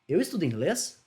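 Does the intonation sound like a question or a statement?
question. It is said with question intonation. It asks a question.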